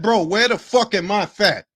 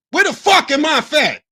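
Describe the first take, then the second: First: Said in the usual way. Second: "Where the fuck am I fat?" repeated higher and louder, punching "fuck". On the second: Real, not acted. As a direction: hit "fuck" hard the second time.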